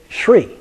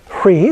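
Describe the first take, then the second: First: The word begins with an 'sh' sound. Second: The word begins with an 'h' sound. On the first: This reflects a linguistic variation. "they add an S in front" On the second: This matches the spelling. "the way it looks"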